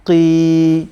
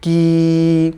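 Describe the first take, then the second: First: কি with the k sound made at the throat; qaf from the throat. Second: কি with a light front-of-mouth k; কি with a clear front k, slowly; kaf from the mouth. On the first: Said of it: "এটি একটু গলার ভিতর থেকে". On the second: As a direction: form the কি forward in the mouth. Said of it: "এটা হচ্ছে মুহ গহ্বরের, ... বাহিরের যে সাইডটি". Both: Shown as a demonstration.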